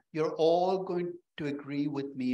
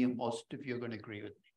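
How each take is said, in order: First: "all" stretched out and slowed, a confident sweeping claim; stress on all. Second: Softer, dropped-down afterthought correcting "all" to "most"; quieter wry correction. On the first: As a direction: lean hard on "all", slowly. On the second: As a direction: say it softer, as a dry self-correction. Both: Shown as a demonstration.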